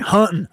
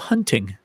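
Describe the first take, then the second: First: The T in the middle is dropped. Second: The T in the middle is clearly pronounced. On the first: The speaker calls it right. "You can't pronounce a T in hunting" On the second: The speaker calls it wrong. "Just pronounce the T"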